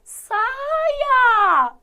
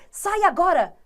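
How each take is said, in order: First: It is said as a begging plea. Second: It is said as a firm command.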